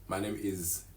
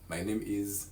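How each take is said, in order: Both takes have the same delivery.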